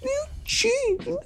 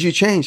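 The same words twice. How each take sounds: First: It is said in a baby voice. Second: It is said in a normal voice.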